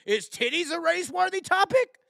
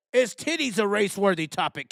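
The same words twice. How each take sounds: First: Mocking high question. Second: Said in the usual way. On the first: Mock question to commenters.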